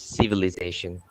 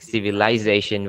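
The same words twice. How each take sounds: First: The word is said with an American accent. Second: The word is said with a British accent. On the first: "in the U S they're gonna use civilization" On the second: "in the U K, they're gonna strictly pronounce it like civilization"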